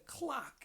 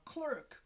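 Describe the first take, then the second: First: It is said with a British accent. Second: It is said with an American accent. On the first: "That is British accent" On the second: "In America, they say a clerk"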